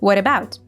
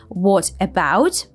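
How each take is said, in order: First: The t in 'what' sounds like a d. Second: The t in 'what' is a clear t. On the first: The speaker calls it right. "it morphs into a D sound" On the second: The speaker calls it wrong. "so it's not what about"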